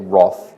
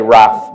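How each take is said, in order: First: The word has the local, non-American pronunciation. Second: The word has an American pronunciation. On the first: "but here I'll say wrath" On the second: "In America we say wrath"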